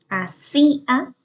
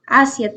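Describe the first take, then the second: First: The stress is on a later syllable. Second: The stress is on the first syllable. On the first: "tiene el acento en esta sílaba, en la tercera" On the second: "tiene el acento en la primera sílaba"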